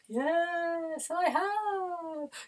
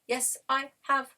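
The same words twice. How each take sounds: First: It is said in a ghostly voice. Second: It is said in a robotic voice.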